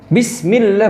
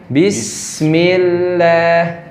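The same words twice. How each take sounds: First: The s sound is cut off abruptly. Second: The s sound is released smoothly and flows. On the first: The speaker calls it wrong. "berarti di dihentak" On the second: The speaker calls it right. "dilepaskan saja sinnya"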